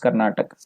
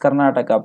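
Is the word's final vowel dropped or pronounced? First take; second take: dropped; pronounced. First: The final vowel is cut off at the end. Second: The final vowel is fully pronounced at the end. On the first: The speaker calls it wrong. "people tend to produce it's Karnataka" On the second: The speaker calls it right. "the actual word is Karnataka"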